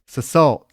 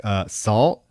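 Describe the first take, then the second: First: "salt" misread as two syllables, "suh-SALT"; misspelled word. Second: Said in the usual way. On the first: Retold or imitated. Reading a misspelled list aloud, misreading "salt" as "suh-SALT". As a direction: sound out "salt" with an extra "suh" in front. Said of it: "can't even read what some of it says". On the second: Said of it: "And she's like".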